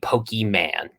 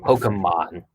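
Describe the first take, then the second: First: The first part ends in a long E sound. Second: The first part is a short 'poke' sound. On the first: The speaker calls it wrong. "You said Pokey" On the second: The speaker calls it right. "There's a little accent, Poke"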